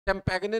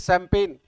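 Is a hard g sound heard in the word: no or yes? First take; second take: yes; no. First: It is said with a hard g sound. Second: It is said with no g sound. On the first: The speaker calls it wrong. "चैंपेगने नहीं है ये" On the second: The speaker calls it right. "तय है ये सैंपेन"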